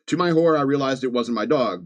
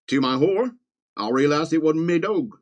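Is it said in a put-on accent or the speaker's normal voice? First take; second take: normal voice; put-on accent. First: It is said in his normal accent. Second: It is said in a put-on accent.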